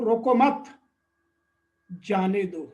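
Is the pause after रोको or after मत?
after मत. There is a pause right after मत.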